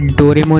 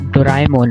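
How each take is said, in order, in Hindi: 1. यह नाम 'Dor' के बाद सादे 'e' के साथ बोला जाता है। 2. यह नाम 'Do' के बाद 'ra-e' के साथ बोला जाता है। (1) "ये डोरेमोन नहीं" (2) "डोराएमोन है"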